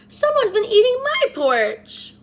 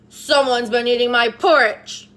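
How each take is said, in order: First: It is wailed plaintively in Mama Bear's voice. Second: It is roared loudly in Papa Bear's voice.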